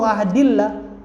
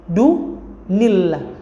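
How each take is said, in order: First: The 'd' links straight into 'illah' with no 'n'. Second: An 'n' sound is heard before 'illah'. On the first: The speaker calls it wrong. "bukan qul huwallahu ahadillah" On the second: The speaker calls it right. "tetapi du nillah"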